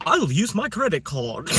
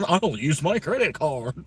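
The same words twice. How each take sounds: First: Slow, high mock British accent through laughter; hammed-up British accent, louder. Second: Slow, high mock British accent; same line again, posh British voice; mock British accent, louder. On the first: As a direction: say it like a posh Brit, laughing. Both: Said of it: "British accent".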